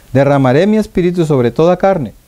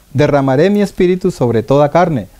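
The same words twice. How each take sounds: The two takes are said the same way.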